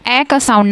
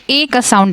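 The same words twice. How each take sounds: First: "ए" said as short open "ae", as in cat; short A sound. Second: "ए" said as long "ay", as in apron; long A sound. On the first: Teacher names the sound lone A doesn't give, short "ae" for "ए". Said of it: "ए का sound ना दे के". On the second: Teacher names the sound lone A gives, long "ay" for "ए". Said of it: "ए का sound देता है". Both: Shown as a demonstration.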